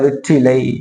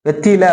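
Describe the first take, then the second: First: The word ends in an 'ai' sound. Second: The word ends in a short 'a' sound. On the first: This is the pure, standard form. "தூய Tamil" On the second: This is the everyday spoken form. "வெற்றில அப்படிங்கிறோம்ல"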